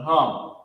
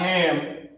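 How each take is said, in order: First: The vowel is an 'u' sound as in hum. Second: The vowel is an open 'a' as in ham. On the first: The speaker calls it right. "but hum" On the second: The speaker calls it wrong. "Not ham"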